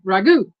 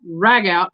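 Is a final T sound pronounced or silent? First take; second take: silent; pronounced. First: The final T sound is silent. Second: The final T sound is pronounced. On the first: "Or it could be" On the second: "I'm going to pronounce it both"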